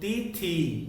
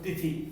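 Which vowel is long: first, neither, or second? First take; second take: second; neither. First: Only the second vowel is long. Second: Both vowels are short. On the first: The speaker calls it wrong. "थ में बड़ी की है, त में छोटी की है" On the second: The speaker calls it right. "पहले शब्द का उच्चारण करें तो तिथि"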